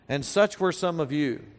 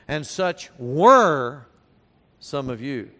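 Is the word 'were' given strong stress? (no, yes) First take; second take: no; yes. First: The word 'were' carries no special stress. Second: The word 'were' carries strong stress.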